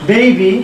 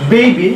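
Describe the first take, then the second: First: বেবি as "BAY-bee", with an EI glide; English baby pronunciation. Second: বেবি with a plain short E, "be-bi"; local baby pronunciation. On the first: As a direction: stretch the first vowel of বেবি into EI. (বেবি, "বেইবি"র মতো) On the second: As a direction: say বেবি without the glide. (বেবি, সাদামাটা "এ" দিয়ে) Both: Shown as a demonstration. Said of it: "আমরা যদি বলি বেবি".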